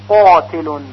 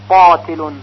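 Both takes have the same delivery.

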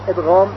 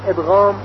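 Both takes have the same delivery.

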